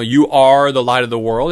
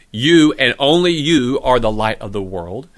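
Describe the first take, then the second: First: Said in the usual way. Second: "you" both times leaned on with a slight rise; stress on you. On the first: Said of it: "it's emphatic". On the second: Shown as a demonstration. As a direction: press each "you" to make it exclusive. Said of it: "You could render this as".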